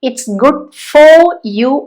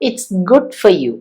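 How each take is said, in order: First: The word 'for' is said in full. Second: The word 'for' is reduced to a weak form. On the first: The speaker calls it wrong. "അല്ല" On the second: The speaker calls it right. "ആ ഒരു വീക്ക് pronunciation കൊണ്ടുവന്നാൽ മതി"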